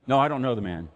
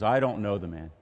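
First: Loud, flat denial of knowing him; firm denial. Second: Said in the usual way. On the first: Retold or imitated. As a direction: push the man away with a hard no. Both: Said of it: "That's what Peter says".

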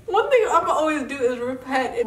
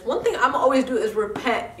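First: Laughing, a little louder. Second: Said in the usual way. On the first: Real, not acted. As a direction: crack up while repeating it. Says it, then repeats laughing.

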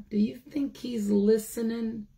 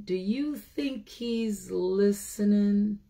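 First: Hushed whisper. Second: Said in the usual way. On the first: Real, not acted. The teacher asks the children again in a whisper. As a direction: breathe the question like a secret.

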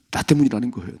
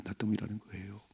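First: Said in the usual way. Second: 때문이라는 repeated much softer, nearly breathed; hushed echo. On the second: Shown as a demonstration. Preacher repeating 때문이라는 quietly as David's confession. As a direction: echo 나 때문이라는 거예요 softly to self. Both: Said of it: "repeated line".

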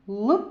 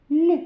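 First: "Л" as a hard, non-palatal consonant; isolated hard "Л" sound. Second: "Л" palatalised, like the start of "Лі"; isolated soft "Л" sound, louder. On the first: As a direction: say "Л" firmly as a hard L, tongue not softened. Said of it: "Вимовляємо твердо". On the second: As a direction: say "Л" as a soft L with an i colour. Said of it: "Ми його вимовляємо м'яко". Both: Shown as a demonstration.

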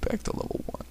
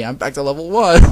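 First: Faint, whispered last words; weak, voiceless collapse; weakly. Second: Loud wail climbing to the end; outraged, rising exclamation; loud dismay. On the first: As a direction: barely get it out, fading. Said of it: "Konata said weakly before falling over". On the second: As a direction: cry out the defeat. First take of Konata's defeat line. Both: A narrator's reading.

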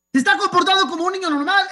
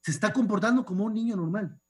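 First: Más agudo y rápido, enfático; defiéndelo con fuerza; insistencia indignada. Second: Said in the usual way. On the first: Retold or imitated. (alto y rápido, indignado) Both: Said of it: "Yo estaba pensando".

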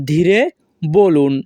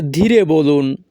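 First: "ধীরে" rising, pause, then "বলুন" falling; word by word. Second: Said in the usual way. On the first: Shown as a demonstration. Teacher repeating the phrase for learners, word by word.

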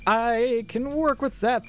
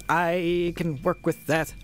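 First: Much higher, drawn-out squeaky echo; high-pitched repeat. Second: Said in the usual way. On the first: Pretend.

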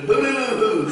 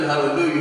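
First: Higher singsong mimicked hallelujah; imitated hallelujah whoop. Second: Said in the usual way. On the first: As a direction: mimic his garbled, hooting hallelujah. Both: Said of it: "that's the way he said hallelujah".

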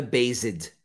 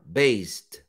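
First: "based" as /bezed/ with an extra "ed" syllable; "based" in two syllables, the wrong way; wrong pronunciation. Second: "Based" as /best/, one syllable ending in a t; "Based" said low, one syllable, ending in t; correct pronunciation. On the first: Teacher mimics the common wrong "based". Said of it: "Muita gente fala based". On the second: Teacher shows students the right "Based". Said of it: "Não é based". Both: Shown as a demonstration.

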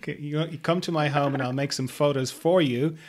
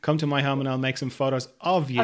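First: "for you" rising at the end; stress on for. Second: "of you" falling at the end; stress on of. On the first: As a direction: lean on "for" in "photos for you". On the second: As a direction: lean on "of" in "photos of you". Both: Shown as a demonstration. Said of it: "big difference between saying".

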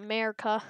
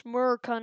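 First: Said in the usual way. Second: "Merca" with the first syllable dropped; "Merca", the folksy short form of America; clipped slang America. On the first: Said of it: "not America". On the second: Shown as a demonstration. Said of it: "it's Merca, not America".

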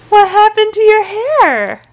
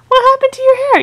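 First: Much higher, slow, louder coo; drawn-out squeaky baby voice; high baby talk. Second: Much higher and louder, quicker; squeaky baby talk. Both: Acted. Mom teasing baby.

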